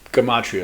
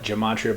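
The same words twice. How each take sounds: First: The word begins with a hard G sound. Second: The word begins with a J sound. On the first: The speaker calls it right. "but it's gematria as far as I know" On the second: The speaker calls it wrong. "they call it gematria"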